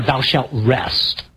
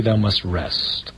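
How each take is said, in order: First: Slow and weighty, each word set apart; solemn slow commandment. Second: Low, slow and soft, each word weighed; solemn slow commandment. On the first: Preacher to congregation, grave and slow. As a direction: lay down the law slowly. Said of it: "I just kinda sum up by saying". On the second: Preacher summing up the commandment, slow and grave. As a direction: intone it gravely and slowly. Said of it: "they kind of boil down to". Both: Shown as a demonstration.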